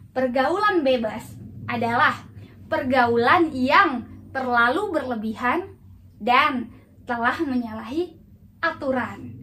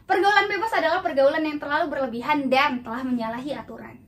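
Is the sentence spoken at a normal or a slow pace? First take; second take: slow; normal. First: The sentence is spoken slowly with a different tone. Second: The sentence is spoken at a normal pace.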